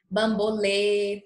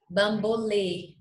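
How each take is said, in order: First: "bambolê" slowly, final ê closed; slow demo. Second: "bambolê" slowly, final ê closed, falling; slow demo. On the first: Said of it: "Percebam a grande diferença". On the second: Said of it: "Olha a diferença". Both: Shown as a demonstration. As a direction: stretch "bambolê", closed ê at the end.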